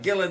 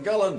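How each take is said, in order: First: The name is said the upper-class way. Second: The name is said the local way. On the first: This is how the well-off people say it. "the Uppies call it Gillen" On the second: This is how the ordinary local people say it. "the Doonies call it Gullen"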